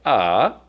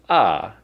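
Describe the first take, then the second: First: The pitch dips low and then rises. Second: The pitch falls sharply from high to low. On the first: "the third tone that goes down and up" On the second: "the fourth tone"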